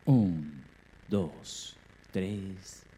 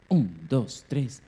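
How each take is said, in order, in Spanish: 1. La cuenta se dice a ritmo lento. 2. La cuenta se dice a ritmo rápido. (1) "la cuenta del comienzo fue mucho más lenta" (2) "Acá la cuenta que hubo al comienzo fue más rápida"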